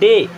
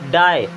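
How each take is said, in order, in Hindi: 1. स्वर 'day' वाले स्वर जैसा सुनाई देता है। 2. स्वर 'die' वाले स्वर जैसा सुनाई देता है।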